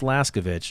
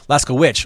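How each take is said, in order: First: The last syllable begins with a V sound. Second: The last syllable begins without a V sound. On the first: The speaker calls it wrong. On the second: The speaker calls it right.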